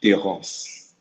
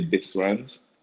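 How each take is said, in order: First: The S in the middle is silent. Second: The S in the middle is pronounced. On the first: The speaker calls it right. "in the French pronunciation, the S is silent" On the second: The speaker calls it wrong. "that's how any American would pronounce it"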